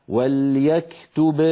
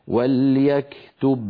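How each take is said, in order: The two takes are said the same way.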